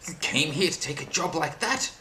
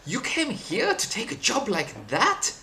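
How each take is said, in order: First: It is said in the speaker's plain accent. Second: It is said in a put-on French accent. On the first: The speaker calls it wrong. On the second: The speaker calls it right.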